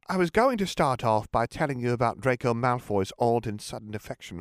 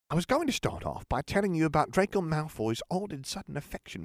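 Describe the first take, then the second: First: It is said in a Crabbe character voice. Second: It is said in a Bulstrode character voice.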